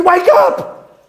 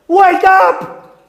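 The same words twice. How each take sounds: First: High urgent shout, rising at the end; "Wake up!" called out rising. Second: High forceful shout, pushing harder; "Wake up!" shouted harder. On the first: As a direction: yell it to rouse a sleeper. Calling out to sinners, rising. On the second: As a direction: slam the "Wake up!" home. Repeated call, higher and louder. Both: Acted.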